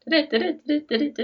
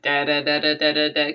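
First: The pitch bounces up and down musically. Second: The pitch stays flat on one level. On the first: This is how Scandinavian languages typically sound. "that stereotypical" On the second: This is how the Icelander speaks Danish. "kind of monotone"

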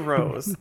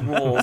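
First: The name is said without an L sound. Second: The name is said with an L sound. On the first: "he doesn't say rose" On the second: "And he says rolls"

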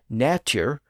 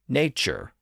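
First: The middle consonant is a plain T sound. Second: The middle consonant is a CH sound. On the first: This is the older pronunciation. "with its T sound" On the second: This is the modern pronunciation. "with its CH sound"

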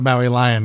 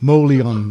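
First: The handle is said as two separate words. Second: The handle is blended into one short word. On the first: The intended reading, a place name plus a big cat. "As opposed to Maui Lion" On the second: A playful, fantasy-sounding reading of the handle. "Joe Beta's Tolkien-esque pronunciation"

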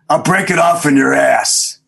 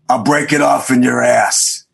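First: It is said with strong emotion. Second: It is said flatly, without much emotion.

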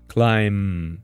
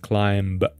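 First: The word ends on M with no B. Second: A B sound is heard at the end. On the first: The speaker calls it right. "you don't say B, it's just M" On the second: The speaker calls it wrong. "often students pronounce the word as climb"

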